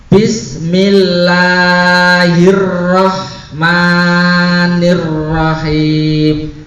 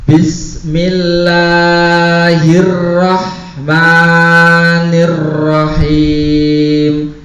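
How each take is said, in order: The two takes are said the same way.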